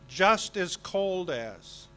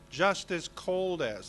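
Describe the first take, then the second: First: The phrase is said slowly, word by word. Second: The phrase is said quickly and run together. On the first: The speaker calls it wrong. "But that's not the way we see it, say it" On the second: The speaker calls it right. "We say it much faster than that"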